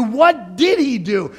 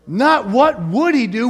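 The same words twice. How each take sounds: First: "did" punched as the correct word; emphatic, slow line leaning on "did"; stress on "did". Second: "would" punched as the rejected word; emphatic "would", marked against the rest; stress on "would". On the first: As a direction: hit "did" hard, drawing the phrase out slowly. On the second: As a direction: lean hard on "would" to set up a contrast. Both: Shown as a demonstration. Contrasting would with did.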